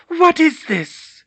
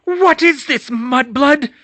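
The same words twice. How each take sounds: First: High, loud, slow crazed witch voice; hissed menace. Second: High, loud mad witch; crazed witch snarl. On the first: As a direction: drag out the threat like a madwoman. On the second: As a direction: spit the insult. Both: Acted. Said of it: "she hissed".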